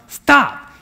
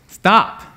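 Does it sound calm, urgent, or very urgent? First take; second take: very urgent; urgent. First: It is said with the most urgency. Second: It is said with more urgency.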